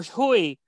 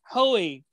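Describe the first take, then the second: First: "Hoey" said as HOO-ee; alternative pronunciation. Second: "Hoey" said as HOH-ee; first pronunciation guess. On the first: Host offering another guess at the name, "Hoey" as HOO-ee. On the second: Host guessing a debuting player's name, "Hoey" as HOH-ee. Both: Shown as a demonstration. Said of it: "or whatever".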